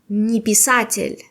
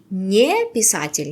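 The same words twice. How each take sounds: First: The two words run together as one word. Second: The two words are said separately, with a break. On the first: The speaker calls it right. "я говорю не писатель, как одно слово" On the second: The speaker calls it wrong. "нет"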